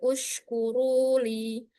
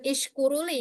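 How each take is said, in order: First: The word starts with a u vowel. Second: The word starts with an i vowel. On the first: The speaker calls it right. "tapi ushkuruli" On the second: The speaker calls it wrong. "bukan ishkuruli ya"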